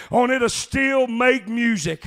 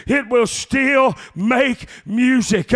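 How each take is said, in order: First: "it'll still make music" drawn out slowly; slow preached line. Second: "It will still make music" very slow and louder, "still" pressed; louder slow repeat. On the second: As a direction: repeat it bigger, leaning on "still". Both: Shown as a demonstration.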